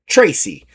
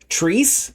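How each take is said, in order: First: It is said with two syllables, like Tracy. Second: It is said as one syllable, like Treese. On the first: The speaker calls it right. "pronounced like Tracy" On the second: The speaker calls it wrong. "I was pronouncing it like Treese"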